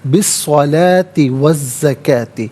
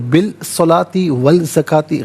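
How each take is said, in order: First: The L merges into the doubled following consonant. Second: The L sound is clearly pronounced before each word. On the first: The speaker calls it right. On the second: The speaker calls it wrong.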